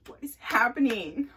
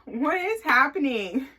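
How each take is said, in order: First: Puzzled rising question; what is happening asked in mild confusion; confused. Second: Higher, louder and slower, drawn-out disbelief; what is happening stretched in disbelief; incredulous. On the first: Butt touched again, confused. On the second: Repeats, more incredulous. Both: Retold or imitated.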